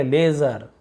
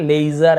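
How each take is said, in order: First: लेजर with one plain long 'e', 'lay-zar'; लेजर said as LE-zar; pure ay vowel. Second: लेजर with a split 'lay-i-zar' glide; लेजर said as LEI-zar; gliding vowel. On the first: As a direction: keep the ले of लेजर a single held vowel. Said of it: "ए पढ़ रहे हैं". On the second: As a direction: add an 'i' glide after ले in लेजर. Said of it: "लेजर ऐसे नहीं पढ़ रहे". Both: Shown as a demonstration.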